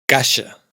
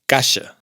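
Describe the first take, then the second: Both takes have the same delivery.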